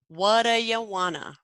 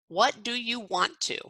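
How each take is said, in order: First: The words blend together into a reduced form. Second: Each word is said fully and separately. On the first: The speaker calls it right. "smooth and elegant" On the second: The speaker calls it wrong. "that's kind of choppy and hard to say"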